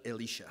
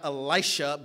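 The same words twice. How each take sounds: First: "Elisha" with an "ee" vowel, low and soft; preferred Hebrew-style pronunciation. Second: "Elisha" with a long "eye" vowel; rejected English pronunciation. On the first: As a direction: say "Elisha" as eh-LEE-sha. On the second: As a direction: say "Elisha" as ee-LIE-sha. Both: Shown as a demonstration. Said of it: "not Elisha, but Elisha".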